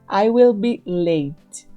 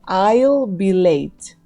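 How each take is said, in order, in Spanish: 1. La palabra will se dice completa. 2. La palabra will se acorta a I'll.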